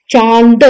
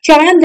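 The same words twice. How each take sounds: First: चांद with a nasalized aa; correct nasal. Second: चांद with a full n, no nasal vowel; wrong nasal. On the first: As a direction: say चांद as "chãad". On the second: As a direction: say चांद as "chaand". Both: Shown as a demonstration. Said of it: "चांद नहीं".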